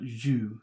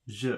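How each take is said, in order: First: The vowel is a high 'oo'-like sound. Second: The vowel is a mid 'uh'-like sound. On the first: The speaker calls it wrong. "not ju" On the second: The speaker calls it right. "Je, not ju"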